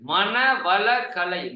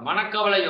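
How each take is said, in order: First: Each part, 'mana vala kalai', is said clearly. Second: The syllables merge into 'manakkavalai', dropping 'vala'. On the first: It means the art of enriching the mind. The speaker calls it right. "மனதை வளப்படுத்தக்கூடிய கலை" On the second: It sounds like a word for mental worry. The speaker calls it wrong. "நிறைய பேர் கொஞ்சம் தப்பா உச்சரிப்பாங்க"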